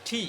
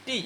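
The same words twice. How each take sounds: First: ঠি with a puff of air after T; airy, aspirated ঠি. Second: Said in the usual way. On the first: Shown as a demonstration. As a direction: breathe out into "thi" for ঠি, tongue stop first. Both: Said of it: "টি এর উচ্চারণটা হবে".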